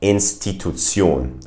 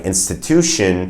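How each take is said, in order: First: INSTITUTION as "in-sti-too-TSYOHN"; German pronunciation. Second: Said in the usual way. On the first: Shown as a demonstration. Teacher contrasts with English, German pronunciation. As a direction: end INSTITUTION on German tsee-ohn. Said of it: "German pronunciation of that word". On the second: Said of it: "German pronunciation of that word would be".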